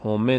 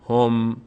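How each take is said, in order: First: همه with a stray vowel after the m; wrong pronunciation. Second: هم as one syllable, hom, ending on m; correct pronunciation. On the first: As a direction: say همه as ho-me, in two syllables. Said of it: "نشه". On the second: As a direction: say هم firmly, closing the lips on m. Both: Shown as a demonstration.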